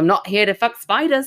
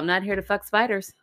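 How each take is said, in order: First: It is spoken in an Australian accent. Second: It is spoken in the speaker's normal accent.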